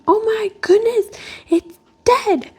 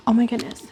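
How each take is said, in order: First: Much higher, louder mock panic of a child; daughter's alarm. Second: A hushed oh my goodness, so as not to scare the bird; whispered surprise. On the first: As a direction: imitate her daughter's shocked cry, pitched way up. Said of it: "my daughter going". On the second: Real, not acted. Noticing the watching dove.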